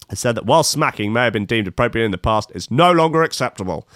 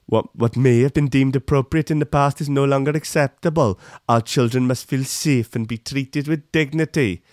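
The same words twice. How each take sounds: First: Said in the usual way. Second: Sing-song put-on Welsh accent; mock Welsh accent. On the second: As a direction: recite it as a caricatured Welsh minister, Welsh accent. Repeats minister's quote as Welsh impression.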